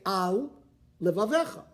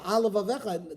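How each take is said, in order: First: The two words are kept clearly apart. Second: The two words run together as one. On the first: The speaker calls it right. "or did you say Al Levavecha?" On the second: The speaker calls it wrong. "did you say one word"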